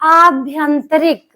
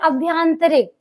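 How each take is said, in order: First: The first vowel is long. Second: The first vowel is short. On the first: The speaker calls it right. "शुद्ध शब्द होता है आभ्यंतरिक" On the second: The speaker calls it wrong. "बच्चे बोलते हैं अभ्यंतरिक"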